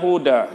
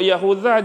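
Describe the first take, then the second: First: The middle consonant is a plain 'd' sound. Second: The middle consonant is a soft 'th' sound. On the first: "macam huruf za tapi tak ada titik. Huruf apa? Huruf da" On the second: "za kecil tu ada titik atas ni"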